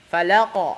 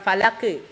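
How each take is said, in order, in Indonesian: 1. Gema q terakhir condong ke vokal a. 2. Gema q terakhir tidak condong ke a. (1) "tapi falaq" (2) "Bukan falake"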